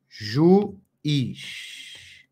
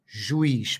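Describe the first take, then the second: First: "Juiz" broken as ju... iz, pause between; split into syllables. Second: Said in the usual way. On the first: Shown as a demonstration. Teacher writing the word for students, "Juiz" slowly split in two. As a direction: draw out "Juiz" one syllable at a time. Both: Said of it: "Essa é a separação silábica".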